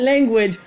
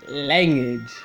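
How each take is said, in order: First: The first syllable sounds like 'lau'. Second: The first syllable sounds like 'lang'. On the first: The speaker calls it wrong. "Not language" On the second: The speaker calls it right. "LAN, not LAU, LANG"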